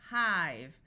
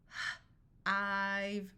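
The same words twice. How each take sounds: First: Said in the usual way. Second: Puffed H, pause, then long "ive"; sounded out. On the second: Shown as a demonstration. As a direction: break "h-, ive" into separate sounds. Phonics teacher sounds out, then blends.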